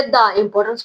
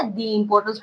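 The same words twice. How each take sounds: First: "दा" with an open a before importance. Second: "दी" with a long ee before importance; "the" as dee. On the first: Teacher offers pupils the other choice, "दा" as da. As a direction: say "दा" as da, then importance. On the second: Teacher offers pupils a choice, "दी" as dee. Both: Shown as a demonstration. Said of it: "किस तरह से आपने pronounce".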